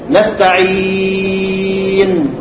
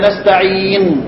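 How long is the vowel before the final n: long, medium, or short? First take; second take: medium; short. First: The vowel before the final n is medium length. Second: The vowel before the final n is short. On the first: "والتوسط" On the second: "القصر"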